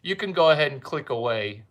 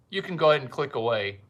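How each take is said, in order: Both takes have the same delivery.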